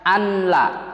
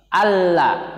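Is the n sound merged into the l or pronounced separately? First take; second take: pronounced; merged. First: The n is pronounced clearly before the l. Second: The n merges fully into the following l. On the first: The speaker calls it wrong. "nggak boleh kalian membacanya anla" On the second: The speaker calls it right. "harusnya dibaca seperti ini"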